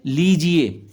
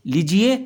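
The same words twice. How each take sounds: First: लीजिए with long lee, falling. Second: लीजिए with short li, rising; short-i misreading. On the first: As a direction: stretch the first syllable of लीजिए. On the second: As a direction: clip the first vowel of लीजिए. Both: Shown as a demonstration. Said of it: "इसमें बड़ी की मात्रा आएगी".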